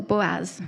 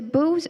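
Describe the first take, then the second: First: Boaz in two syllables, BO-az. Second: Boaz as one syllable, BOOZ. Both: Shown as a demonstration. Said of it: "Do you say Boaz or Boaz?".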